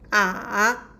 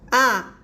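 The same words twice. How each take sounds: First: The pitch dips down, then rises again. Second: The pitch falls sharply from high to low. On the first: "we will go down and uh, rise again" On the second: "we will just uh, do go down"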